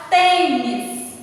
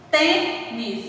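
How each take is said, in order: First: Said in the usual way. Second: "Tênis" split into tê, nis; short pause inside "Tênis" between tê and nis; syllable by syllable. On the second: Shown as a demonstration. ("Tênis" separado, tê... nis) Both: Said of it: "duas sílabas".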